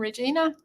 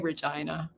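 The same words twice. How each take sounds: First: It is pronounced like the woman's name. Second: It is pronounced the way locals say it. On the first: This is how outsiders say the city name. "many people say Regina because that's how you say the woman's name" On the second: This is how locals say the city name. "but we say Regina"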